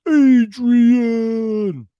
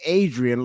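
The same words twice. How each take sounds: First: High, loud bellowed Adrian! in Rocky's voice; Rocky yelling Adrian. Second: Said in the usual way. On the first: Shown as a demonstration. Answering a viewer, a Rocky-style yelled Adrian!. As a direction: holler Adrian! like Rocky calling for her. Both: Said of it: "you say Adrian like Rocky".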